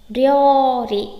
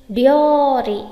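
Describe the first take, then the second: No difference in how they are said.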